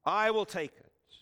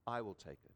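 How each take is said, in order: First: Loud, resolved, stress on will; firm loud declaration. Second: Small, soft and hesitant; tiny trembling voice. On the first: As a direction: call it out to be heard. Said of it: "says three times to be heard". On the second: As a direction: barely dare to say it. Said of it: "tiny, trembling voice". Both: Retold or imitated.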